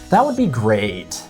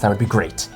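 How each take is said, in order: First: It is said in a sarcastic, passive-aggressive tone. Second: It is said in a sincere, friendly tone. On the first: The speaker is annoyed and not really grateful. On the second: The speaker is genuinely pleased.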